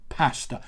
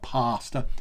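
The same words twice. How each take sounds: First: It is said with a plain English accent. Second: It is said with an exaggerated Italian accent. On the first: The speaker calls it right. "it's pasta" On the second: The speaker calls it wrong. "dreadful Italian accents"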